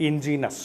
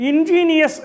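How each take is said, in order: First: Ingenious shortened to in-JEE-nus; word without i. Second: Ingenious as in-JEE-nee-us, high and loud; four syllables in ingenious, sounding the i before -us; ingenious with extra i. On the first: Teacher contrasting a word pair, ingenious said in-JEE-nus. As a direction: drop the i in ingenious, three syllables, in-JEE-nus. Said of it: "Ingenious does not have the letter". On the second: Teacher contrasting a word pair, ingenious said in-JEE-nee-us. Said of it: "See the difference". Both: Shown as a demonstration.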